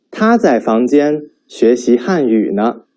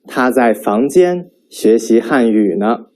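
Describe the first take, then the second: First: 他 stressed, teacher demo; sentence stress demo. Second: 房间 stressed, teacher demo; sentence stress demo. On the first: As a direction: stress on 他 in 他在房间学习汉语呢. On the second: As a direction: stress on 房间 in 他在房间学习汉语呢. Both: Shown as a demonstration. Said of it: "determine the stress of Chinese sentences".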